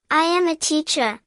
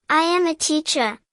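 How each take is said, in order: Both takes have the same delivery.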